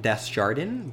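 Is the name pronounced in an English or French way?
English. The name is said with an English-style pronunciation. The speaker calls it wrong. "I was pronouncing it Desjardins"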